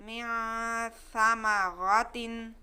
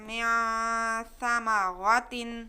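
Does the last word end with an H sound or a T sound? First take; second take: T sound; T sound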